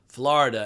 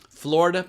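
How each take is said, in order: First: It uses the older regional pronunciation. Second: It uses the newer common pronunciation. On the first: This is how people said it decades ago. The speaker calls it right. "everybody in Virginia and North Carolina pronounced Florida" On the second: This is how most people say it today. The speaker calls it wrong. "now, everybody pronounces it Florida"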